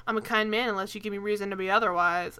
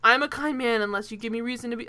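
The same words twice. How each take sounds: First: Lightly voiced old-timey leading man; a hint of a 1940s movie star. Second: Said in the usual way. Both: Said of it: "of course he says it in a shitty nineteen forties voice".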